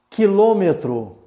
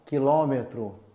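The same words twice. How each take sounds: First: The stressed vowel is closed. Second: The stressed vowel is open. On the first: This is how it is said in Brazil. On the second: This is how it is said in Portugal.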